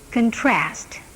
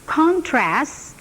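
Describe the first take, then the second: First: The stress is on the second syllable. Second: The stress is on the first syllable. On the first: It is used as a verb. "verbnya menjadi" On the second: It is used as a noun.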